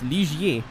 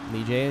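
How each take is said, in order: First: The middle i sound is said, French-style. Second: The middle i sound is left out. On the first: The speaker calls it right. "Some little, little Quebec stank on there" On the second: The speaker calls it wrong. "Forgetting the other I"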